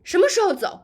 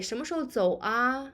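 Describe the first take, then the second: First: Higher, louder, fast impatient 什么时候走; angry. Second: Relaxed, quick 什么时候走啊 with gentle 啊; softened. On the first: Teacher acts an angry traveller asking when to leave, angry. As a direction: snap it out impatiently. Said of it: "If you are angry". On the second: Teacher demos softened question about leaving, gentle. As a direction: ask it easy and friendly. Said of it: "to soften the tone". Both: Shown as a demonstration.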